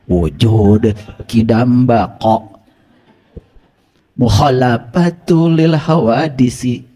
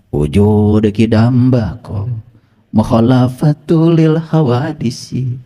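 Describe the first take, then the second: First: The Arabic consonants are articulated carefully. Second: The Arabic consonants are articulated loosely.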